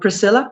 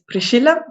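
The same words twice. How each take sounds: First: The name is said with American pronunciation. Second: The name is said with Italian pronunciation. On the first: This is how people in America said it. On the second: This is the name's original form.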